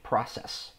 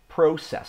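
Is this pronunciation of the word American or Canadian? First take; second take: American; Canadian. First: It is said with an American pronunciation. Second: It is said with a Canadian pronunciation. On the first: "I would say it the American way" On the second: "A lot of Canadians say it that way"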